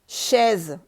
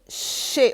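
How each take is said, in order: First: It ends with an audible z sound. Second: It ends in a vowel with no z sound. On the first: The speaker calls it wrong. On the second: The speaker calls it right.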